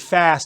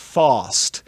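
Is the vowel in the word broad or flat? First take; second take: flat; broad. First: The vowel is a flat front 'a' sound. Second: The vowel is a broad back 'ah' sound. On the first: "He doesn't say fast" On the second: "He says fast"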